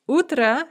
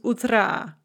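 First: The stress is on the first syllable. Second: The stress is on the last syllable. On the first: "has the stress on the first syllable" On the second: "end stressed"

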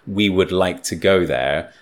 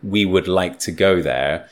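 First: 'We would' is said as two full words. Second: 'We would' is said as two full words.

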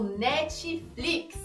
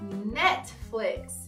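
First: It is said with a Brazilian Portuguese accent. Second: It is said British-style with a strong T. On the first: The speaker calls it wrong. "É assim que a gente fala em português aqui no Brasil" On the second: The speaker calls it right. "Essa é uma forma um pouco mais britânica, porque eu fiz aquele som forte do T"

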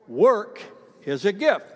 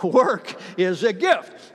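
First: It is said plainly, with low energy. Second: It is said forcefully, with conviction.

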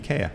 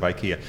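First: It is said the native Swedish way. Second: It is said the usual English way. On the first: "IKEA instead of IKEA" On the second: "instead of IKEA"

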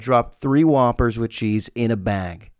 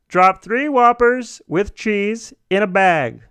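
First: It is said in his natural voice. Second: It is said in a put-on disguised voice.

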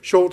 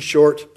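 First: No R sound is pronounced after the vowel. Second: An R sound is pronounced after the vowel. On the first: "they do for me" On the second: "in a typical American pronunciation"

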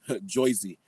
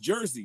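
First: The first syllable sounds like 'joy'. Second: The first syllable sounds like 'jer'. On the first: This is an outsider's stereotyped version of the name. The speaker calls it wrong. "We don't say it like that. People from Boston say it like that" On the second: This is how locals actually say the name. The speaker calls it right. "It's Jersey, man"

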